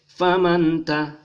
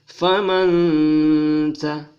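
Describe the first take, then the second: First: The n is plain, with no held nasal sound. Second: The n is nasalized and held for two beats. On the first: The speaker calls it wrong. "tidak boleh dibaca" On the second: The speaker calls it right. "maka dia dibaca berdengung dua harakat"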